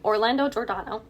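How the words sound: The name is said with an English accent. "in an English accent it would be"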